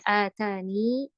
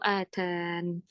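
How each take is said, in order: First: The word ends with a long 'ee' vowel. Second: The word ends on the 'n' sound. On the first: "ketika kita berhenti pada kata atania bisa bacanya atani" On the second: "atau atan"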